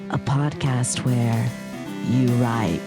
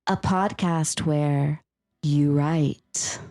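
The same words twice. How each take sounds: First: It is said in a husky, close voice. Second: It is said in a plain, clear voice.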